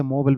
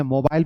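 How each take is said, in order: First: मोबाइल as "MO-bul"; American मोबाइल, no eye vowel; American pronunciation. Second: मोबाइल as "mo-BILE"; British मोबाइल with a long eye vowel; British pronunciation. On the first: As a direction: say मोबाइल with a reduced second syllable. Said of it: "American English में". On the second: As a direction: say मोबाइल rhyming with file. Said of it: "British English में". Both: Shown as a demonstration.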